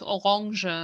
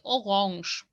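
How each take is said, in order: First: The final E sound is pronounced. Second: The final E sound is left silent. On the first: It names the fruit, not the color. The speaker calls it wrong. "If you say it with the E, it sounds like the fruit" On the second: It names the color. The speaker calls it right. "Don't say the E"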